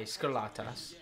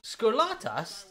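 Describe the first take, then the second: First: Scarlatas said lower and softer as sker-LAT-as, falling; settled pronunciation. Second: Scarlatas sounded out slowly as skor-LAH-tas with a questioning rise; unsure pronunciation. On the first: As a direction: Scarlatas dropped low as a deadpan verdict. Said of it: "Sounds like an S T I". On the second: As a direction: try Scarlatas slowly, like a guess. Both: Shown as a demonstration.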